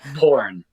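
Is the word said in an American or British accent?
American. It is said in an American accent with an r. The speaker calls it right. "I'll say it in an American accent"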